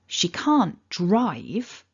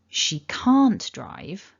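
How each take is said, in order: First: The stress falls on the word drive. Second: The stress falls on the word can't. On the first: She can do other things, like cycle. "If I stressed the word drive" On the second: It denies a claim that she can drive. "If I stress can't"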